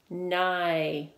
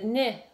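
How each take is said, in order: First: The vowel is long, like 'eye'. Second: The vowel is short, like 'ih'. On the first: The speaker calls it right. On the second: The speaker calls it wrong. "If you said nih"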